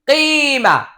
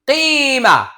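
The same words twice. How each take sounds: No difference in how they are said.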